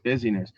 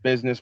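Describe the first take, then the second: First: It is said as busy plus ness, three syllables. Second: It is said as the usual two-syllable word. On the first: It names the state of being busy. "but I pronounce it busyness" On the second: It names commercial affairs or routine activity. "The word is business"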